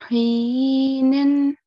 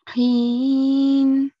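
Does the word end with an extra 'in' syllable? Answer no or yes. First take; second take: yes; no. First: The word ends with a final 'in' sound. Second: The word stops short without a final vowel. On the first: "instead of saying heenin" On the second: "we'll say heen"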